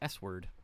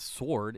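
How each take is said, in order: First: The w is pronounced. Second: The w is silent. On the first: The speaker calls it right. "It's S word" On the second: The speaker calls it wrong. "It's not sword"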